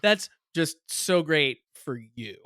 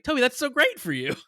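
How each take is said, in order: First: Slow, drawn-out sarcastic praise. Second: High, loud, enthusiastic praise; sincerely thrilled. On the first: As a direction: stretch it out so the praise turns into a dig. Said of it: "you had to hear the intonation". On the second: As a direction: gush as if truly happy for a friend. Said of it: "But really, I could be like". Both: Shown as a demonstration.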